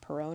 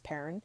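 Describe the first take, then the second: First: The name is said as Perrone. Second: The name is said as Perrin. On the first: The speaker calls it wrong. "I pronounced that incorrectly before, it's not Perrone" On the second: The speaker calls it right. "it's Perrin"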